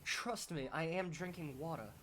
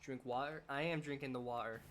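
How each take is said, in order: First: Higher, hammed-up attempt at a British accent; bad try at British accent. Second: Lightly attempted British accent; bad British accent. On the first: Streamer assuring viewers they drink water, failed British accent. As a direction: make a clumsy, playful stab at British. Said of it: "just a bad try at a British accent". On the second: Streamer playfully answering about drinking water, bad British accent. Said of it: "that was a bad British accent".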